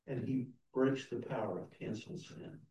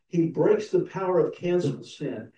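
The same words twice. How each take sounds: First: Much softer, inward repeat of breaks; hushed hymn line. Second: Louder, ringing proclamation of breaks; proclaimed hymn line. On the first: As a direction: let he breaks the power sink in quietly. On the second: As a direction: declare he breaks the power out loud to the church. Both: Shown as a demonstration. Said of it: "we sing the hymn".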